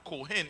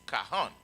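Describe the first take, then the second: First: The first vowel is an 'o' sound. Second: The first vowel is an 'a' sound. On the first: The speaker calls it wrong. "It's not Kohen" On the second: The speaker calls it right. "We didn't have the O"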